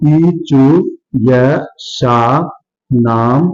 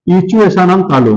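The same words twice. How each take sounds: First: Word by word with long pauses; slow dictation. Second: Said in the usual way. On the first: Shown as a demonstration. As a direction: spell out the sutra slowly, dropping lower. Teacher repeats the sutra for dictation. (धीरे-धीरे, रुक-रुक कर)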